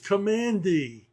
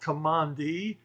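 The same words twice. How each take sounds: First: The ending is said like the letter D. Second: The ending is not said like the letter D. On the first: The speaker calls it right. "named for the command in which he was born" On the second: The speaker calls it wrong. "it is not Commandee"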